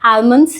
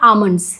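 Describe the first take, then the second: First: The L sound is pronounced in the word. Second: The L sound is left out of the word. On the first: The speaker calls it wrong. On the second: The speaker calls it right.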